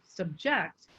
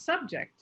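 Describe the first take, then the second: First: The stress is on the second syllable. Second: The stress is on the first syllable. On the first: The word is used as a verb. "with the high tone on the second syllable, subject, that is a verb" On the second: The word is used as a noun. "if you put the high tone on sub, then that's a noun"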